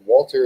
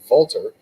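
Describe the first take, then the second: First: The name is said in a plain English way. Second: The name is said in an Austrian way.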